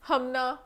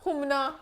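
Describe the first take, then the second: First: The first vowel sounds like 'a' in 'hum'. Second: The first vowel sounds like 'u' in 'put'. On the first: The speaker calls it wrong. "तुम जाहिल हो के लिए हमना कह रही हूँ" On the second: The speaker calls it right. "हुमना है"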